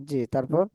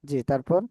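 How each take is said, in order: Both takes have the same delivery.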